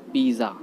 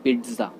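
First: पिज़्ज़ा as 'pee-za'; पिज़्ज़ा without any t sound, 'PEE-za'; common mispronunciation. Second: पिज़्ज़ा as 'pit-za'; पिज़्ज़ा with short i, 'PIT-za'; correct pronunciation. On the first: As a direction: say पिज़्ज़ा with long ee and plain z. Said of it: "दोनों ही गलत होता है". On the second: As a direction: say पिज़्ज़ा with a t before the z. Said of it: "ना पिज़्ज़ा बोलते हैं". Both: Shown as a demonstration.

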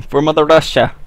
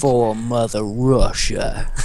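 First: Russian accent attempt. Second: Slow mock Russian. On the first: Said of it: "I can't do a Russian accent". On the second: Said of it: "I do terrible Russian accents".

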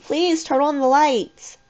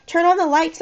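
First: Slow, high, desperate plea; beg, stretching the words out high; drawn-out pleading. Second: High, urgent plea; pleading. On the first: Corey begging in the blackout, pleading slowly. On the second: Corey calling out in the blackout, pleading. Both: A narrator's reading. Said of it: "I heard Corey plead".

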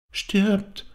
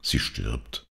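First: Put-on very high little child's voice; child's echo. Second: Low, subdued father's voice; lightly voiced dikegrave. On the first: Child repeats father's word, high little voice. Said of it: "wiederholte das Kind". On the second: Father tells child of the dying woman, low and subdued. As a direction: say it gently and lower. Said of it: "sagte der Deichgraf". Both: A narrator's reading.

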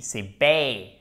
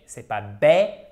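First: "bay" glided from e to i; diphthong bay. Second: "bay" wrongly flat, like French "bè"; a slow, flat, mock-wrong "bay". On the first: Teacher stressing the correct diphthong in "baby". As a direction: slide through the diphthong in "bay". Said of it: "se prononce comme une diphtongue". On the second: Teacher showing learners the wrong flat vowel. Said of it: "pas un E accent grave". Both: Shown as a demonstration.

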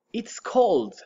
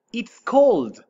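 First: Hushed whispered take. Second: Loud, bright teacher demo; loud model. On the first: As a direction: whisper It's cold, cold. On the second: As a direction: call out It's cold high and loud. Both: Shown as a demonstration. Teacher models cold two ways.

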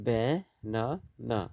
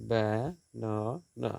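First: banana said slowly and clearly; slow spoken example word. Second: banana stretched slowly, each syllable apart. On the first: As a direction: draw out banana for the students. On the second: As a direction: split banana into its beats slowly. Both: Shown as a demonstration.

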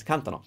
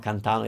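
First: CANtano, stressed on the first syllable; stress before the ending. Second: CanTAno, wrongly stressed on the middle A; misplaced stress. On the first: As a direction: hit CAN in cantano, leave -tano light. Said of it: "I don't stress the A of the ending". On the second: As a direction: lean on the TA in cantano. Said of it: "It's not cantano". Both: Shown as a demonstration.

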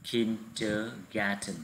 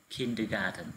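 First: Very slow, syllable by syllable teacher model; deliberate drilling pace; slow model word. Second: Said in the usual way. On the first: Shown as a demonstration. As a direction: draw out "Kindergarten" slowly so the class can copy it. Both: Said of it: "Các em đọc nhấn vào âm thứ nhất".

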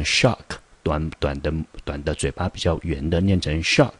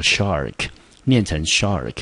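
First: Shark said short with rounded lips, like shock; short rounded vowel. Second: Shark said with open ah, r curled; model shark. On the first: Teacher contrasting shock with shark, short rounded. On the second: Teacher contrasting shark with shock, clear model. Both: Shown as a demonstration.

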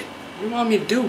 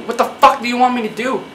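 First: Softer, fast, under-the-breath plea; muttered plea. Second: Full-voiced exasperated what the fuck; exasperated plea. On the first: Acted. Creator muttering at viewers, fast and soft. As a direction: mutter it quickly, half to yourself. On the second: Creator demanding an answer from viewers, exasperated. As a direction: demand it, fed up.

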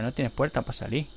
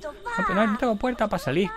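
First: Said in the usual way. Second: High-pitched mock protest; mimicked complaint. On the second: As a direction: protest as the trapped game character. Mimics the character, then answers. (protesta aguda imitada)

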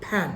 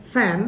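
First: "pan" with a popped p for f; wrong pronunciation. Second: "fan" with a true f; correct pronunciation. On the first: Teacher showing what not to say, mispronounced. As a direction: say "pan" with lips closed, not f. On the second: Teacher correcting the word fan, correct pronunciation. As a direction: say "fan" with lip on teeth, hissed f. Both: Shown as a demonstration. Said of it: "not pan".

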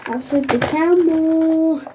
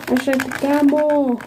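First: Said in the usual way. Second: Hurried, voiced like a toy; fast playful repeat; quick toy voice. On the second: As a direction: rattle it off fast. Child repeating toy phrase.

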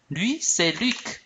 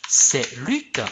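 First: Lui lifted higher, c'est Luc said slowly; stress on Lui. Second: Said in the usual way. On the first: Shown as a demonstration. Teacher showing the stressed pronoun about Luc. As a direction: point at him with Lui, then slow down. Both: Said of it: "Par exemple".

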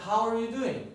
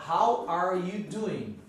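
First: "How are you doing?" quick and linked; faster, connected "How are you doing?"; sped-up version. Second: "How are you doing?" slowly, every word separate; measured, word-by-word "How are you doing?"; slow full version. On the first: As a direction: run "how are you" together briskly. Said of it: "você vai acelerando". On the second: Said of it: "mas na verdade tem". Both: Shown as a demonstration.

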